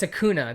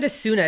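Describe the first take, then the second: First: The middle consonant is a k sound. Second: The middle consonant is an s sound. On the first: The speaker calls it right. "It's Acuna" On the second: The speaker calls it wrong. "So I said Asuna"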